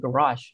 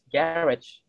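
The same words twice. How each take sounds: First: It is said in an American accent. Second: It is said in a British accent. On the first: "yang di American accent itu dia garage" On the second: "Sementara kalau di British English"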